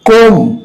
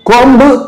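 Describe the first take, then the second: First: The word ends in m with no b. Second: A b sound is pronounced after the m. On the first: The speaker calls it right. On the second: The speaker calls it wrong.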